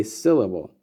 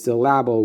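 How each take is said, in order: First: Said in the usual way. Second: "syllable" as sil-LAB-le; wrong stress. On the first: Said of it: "we say syllable". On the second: Shown as a demonstration. Teacher showing what no one says, "syllable" misstressed on the middle syllable. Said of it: "no one says syllable".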